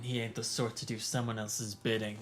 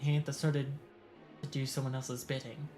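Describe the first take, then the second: First: It is read in a put-on character voice. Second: It is read in the reader's normal voice. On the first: The speaker calls it right. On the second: The speaker calls it wrong.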